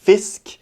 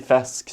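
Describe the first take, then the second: First: It is said in a city style near Eastern Norwegian. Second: It is said in a broad rural dialect. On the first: The speaker is from central Tromsø. "man prøver litt nærmere østnorsk" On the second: The speaker is from outside Tromsø. "man snakker mer sånn bredt"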